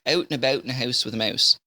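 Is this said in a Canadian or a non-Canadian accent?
Canadian. The vowels are said in a Canadian accent. "they say"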